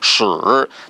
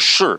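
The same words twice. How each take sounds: First: The pitch dips low, then rises. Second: The pitch falls sharply from high to low. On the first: It means arrow. "terceiro tom significa seta" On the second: It means yes. "significa sim"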